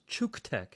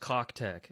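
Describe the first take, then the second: First: The name begins with a 'chook' sound. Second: The name begins with a 'cock' sound. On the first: The speaker calls it right. "it is pronounced Chooktech" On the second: The speaker calls it wrong. "this is not pronounced Cocktech"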